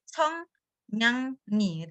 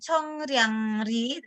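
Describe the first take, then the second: First: The middle consonants are N sounds. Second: The middle consonants are R sounds. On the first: The speaker calls it right. "Realnya menjadi nien semua" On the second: The speaker calls it wrong. "bukan chongryangri"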